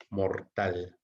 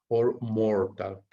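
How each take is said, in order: First: Said in the usual way. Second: Reads the option out slowly, word by word. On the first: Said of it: "repeats the option after reading it". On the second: Shown as a demonstration. Teacher reading a test option to students, slowly. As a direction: spell out the choice slowly for the class. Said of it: "reading the answer options aloud".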